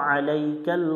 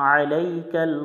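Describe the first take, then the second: Both takes have the same delivery.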